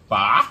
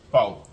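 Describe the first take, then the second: First: "Pho" as "fuh?", loud with a questioning rise; Vietnamese pho pronunciation. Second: Said in the usual way. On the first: Shown as a demonstration. Vlogger trying the nail technician's pronunciation, "Pho" as rising "fuh?". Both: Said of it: "how she told me to say it".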